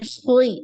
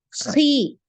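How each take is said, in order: First: The syllable is pronounced with a thick, heavy sound. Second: The syllable is pronounced with a thin, light sound. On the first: The speaker calls it wrong. "bukan khui, khui, bukan seperti itu" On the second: The speaker calls it right. "tipis qi, khi ya"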